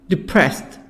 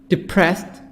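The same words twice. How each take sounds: Both takes have the same delivery.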